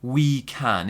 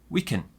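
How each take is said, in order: First: The vowel in 'can' is a full 'ah'. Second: The vowel in 'can' is a weak 'uh'. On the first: The speaker calls it wrong. "It's not really we can" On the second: The speaker calls it right. "It's very weak"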